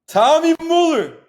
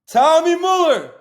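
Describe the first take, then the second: Both takes have the same delivery.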